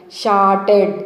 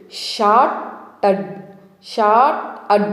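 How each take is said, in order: First: Said in the usual way. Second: "షార్టెడ్" slowly split in two, SHAT, then UD; chunked pronunciation. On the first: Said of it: "అని ఈజీగా pronounce చేయడానికి". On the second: Shown as a demonstration. Teacher teaching chunk by chunk, slow split "షార్టెడ్". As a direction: break "షార్టెడ్" after the first syllable, slow and separate. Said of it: "చంకు మెదడులో ఎలా పలకాలి?".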